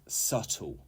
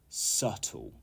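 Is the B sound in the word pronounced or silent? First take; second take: silent; silent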